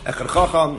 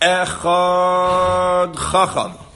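First: The word echad is said at normal length. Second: The word echad is stretched out long.

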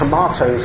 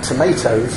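First: The middle vowel is an 'ah' sound. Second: The middle vowel is an 'ay' sound. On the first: "I speak with a British accent" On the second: "and not tomatoes"

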